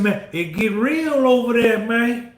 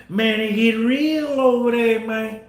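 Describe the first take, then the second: First: Said in the usual way. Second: Southern US accent, mildly imitated. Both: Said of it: "that down south accent".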